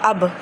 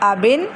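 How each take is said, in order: First: The word ends on a bare consonant. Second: The word ends with a vowel plus n.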